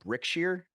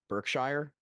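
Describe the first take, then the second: First: The name begins with the sound brick. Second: The name begins with the sound berk. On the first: The speaker calls it right. "let me correct myself. It's called Brickshire" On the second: The speaker calls it wrong. "not Berkshire"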